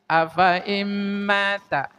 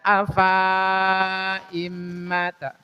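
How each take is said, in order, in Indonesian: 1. Vokal setelah f dibaca pendek. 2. Vokal setelah f dibaca panjang. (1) "tapi fa-nya pendek. Nah, dibacanya seperti ini" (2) "fa-nya jangan dibaca panjang"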